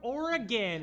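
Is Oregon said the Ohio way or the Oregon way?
Oregon. It is said the way Oregon locals say it. "I'm from Oregon"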